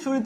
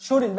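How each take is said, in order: First: Said in the usual way. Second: শরীর said as shoril; dissimilated pronunciation. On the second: Shown as a demonstration. Teacher repeating the changed form, শরীর with final l. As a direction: end শরীর on an l. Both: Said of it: "র পরিবর্তিত হয়ে ল হয়েছে".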